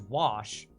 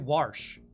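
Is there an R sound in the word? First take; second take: no; yes. First: The word is said without an R sound. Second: The word is said with an R sound. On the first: "which to me W A S H is wash" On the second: "there's some Texas accents that put an R in there"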